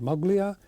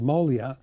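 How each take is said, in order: First: A hard G sound is said mid-name. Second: No G sound is said mid-name. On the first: This is how most people say it. "Most people call it Moglia" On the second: This is how people who know a little say it. "maybe the G is there by mistake, called Molia"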